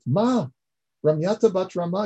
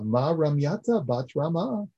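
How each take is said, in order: First: "Ma, Ramyata bat Rama" cried out much higher and louder; amazed outcry. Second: Said in the usual way. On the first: Retold or imitated. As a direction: burst out in shocked disbelief. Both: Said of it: "Yaakov says in amazement".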